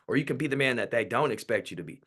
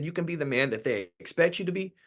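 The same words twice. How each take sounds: First: DON'T punched, then falling to a close; stress on DON'T. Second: Higher pitch, EXPECT stressed, left hanging; first option left open. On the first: Mother stops her son at the door, stressing DON'T, closing with a fall. Mother's either-or choice, contrasting option. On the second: Mother offers her son a choice at the door, EXPECT stressed, pitched high. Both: Retold or imitated.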